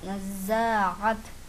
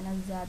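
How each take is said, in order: First: The middle throat sound is clearly pronounced. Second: The middle throat sound is dropped entirely. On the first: The speaker calls it right. "ആയിന് നമ്മൾ വ്യക്തമാക്കി പറഞ്ഞു" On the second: The speaker calls it wrong. "ചിലർക്ക് നസ്സാത്ത ... എന്ന് പറയും. അങ്ങനെ പറയത്"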